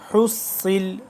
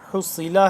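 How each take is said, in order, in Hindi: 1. शब्द व्यंजन पर खत्म होता है, स्वर छूट गया। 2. शब्द का अंत अंतिम स्वर से होता है।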